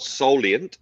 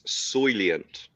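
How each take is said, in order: First: The first syllable sounds like 'sol'. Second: The first syllable sounds like 'soil'. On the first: The speaker calls it wrong. "not solient, ... Starts with soil, not sol" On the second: The speaker calls it right. "it's soilient. Starts with soil"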